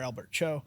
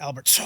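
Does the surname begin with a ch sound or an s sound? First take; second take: ch sound; s sound. First: The surname begins with a ch sound. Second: The surname begins with an s sound. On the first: This is the Americanized pronunciation. The speaker calls it wrong. "that's how Americans pronounce it" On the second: This is the name's actual pronunciation. The speaker calls it right. "it's actually So"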